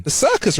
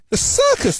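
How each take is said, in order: First: High questioning echo; puzzled repeat. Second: Very high-pitched disbelief; incredulous repeated question. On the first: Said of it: "repeats the duck". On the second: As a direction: ask THE CIRCUS with pitch leaping right up. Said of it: "the duck asks again". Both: A narrator's reading.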